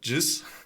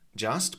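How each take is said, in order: First: The final t sound is dropped. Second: The final t sound is clearly pronounced. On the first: The speaker calls it right. "we've just got jus" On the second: The speaker calls it wrong. "just is not pronounced just"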